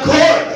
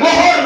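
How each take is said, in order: First: The h is blended into the g as one sound. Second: A vowel separates the g from the h. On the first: The speaker calls it right. "এটা ঘর" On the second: The speaker calls it wrong. "এটা গহর না"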